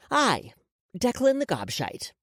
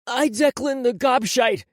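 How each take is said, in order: First: Higher-pitched measured prompt; feed the words to be repeated; dictating. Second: Put-on loud, high, slow boy's voice; tearful repeating. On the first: Woman gives the boy his apology, dictating. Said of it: "So repeat after me". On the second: Crying boy repeats the forced apology, tearful. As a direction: repeat it unwillingly through tears. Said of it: "Declan started to cry". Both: A narrator's reading.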